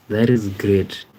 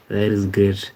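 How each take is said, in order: Both takes have the same delivery.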